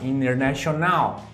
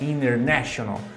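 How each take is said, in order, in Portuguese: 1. A sílaba tônica está na última sílaba. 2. A sílaba tônica está na terceira sílaba. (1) "modificando ali a sílaba tônica daquela palavra" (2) "a sílaba tônica está no N E"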